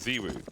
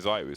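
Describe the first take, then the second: First: The first vowel sounds like 'ee'. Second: The first vowel sounds like 'eye'. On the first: This is the older name used in the French scene. "he used to be called Ziwu for the longest time" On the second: This is the newer name most people now use. "only recently he's been Zaiwu"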